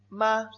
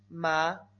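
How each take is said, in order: First: It is said with a high level first tone. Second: It is said with a rising second tone. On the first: "Primer tono"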